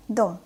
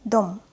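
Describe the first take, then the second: First: Quick, short "Дом"; fast reading. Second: Careful, held "Дом"; slow reading. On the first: Teacher reads as a native speaker, "Дом" said fast. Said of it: "I will read this word fast". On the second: Teacher models the word for beginners, "Дом" read slowly. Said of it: "I will read this word slowly". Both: Shown as a demonstration.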